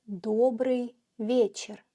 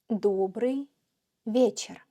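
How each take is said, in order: The two takes are said the same way.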